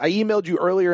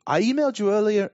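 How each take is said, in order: First: It is read in the speaker's own accent. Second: It is read in a put-on English accent.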